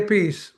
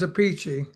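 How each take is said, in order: First: The name ends with an 's' sound. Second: The name ends with a 'chee' sound. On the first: This is how the speaker says his own name. "and I say a piece" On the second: This is how an older sibling says the name. "my older brother says a peachy"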